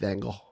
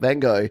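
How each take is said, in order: First: The name is pronounced in a Dutch way. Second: The name is pronounced in an English way. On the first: The speaker calls it right. "it's Van Gogh. But you have to kind of be Dutch to say it properly" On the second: The speaker calls it wrong. "It's not Van Gogh"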